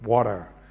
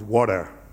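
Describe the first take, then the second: First: The T sound is dropped. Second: The T sound is dropped.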